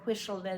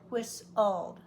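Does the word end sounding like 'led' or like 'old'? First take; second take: led; old. First: The ending is said with L before E, like 'led'. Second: The ending is reversed to sound like 'old'. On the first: The speaker calls it wrong. "It's hard to say whistled" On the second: The speaker calls it right. "so we say whistled"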